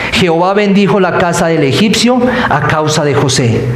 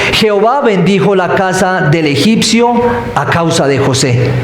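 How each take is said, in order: Both takes have the same delivery.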